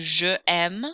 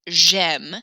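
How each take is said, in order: First: Je and aime are said as separate syllables. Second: Je shrinks to a j sound joined to aime. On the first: The speaker calls it wrong. "instead of saying je aime" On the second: The speaker calls it right. "you're going to say j'aime to make it flow a little bit more smoothly"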